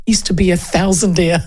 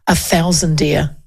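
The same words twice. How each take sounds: First: Said in the usual way. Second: A thousandaire drawn out slowly, with the end sounding like "deer"; Tamitha Paul's thousandaire. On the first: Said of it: "'cause that's what Tamitha Paul would say". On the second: Retold or imitated. Mimicking how Tamitha Paul would say thousandaire, slowly. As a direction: stretch out "thousandaire" slowly, imitating her. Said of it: "that's what Tamitha Paul would say".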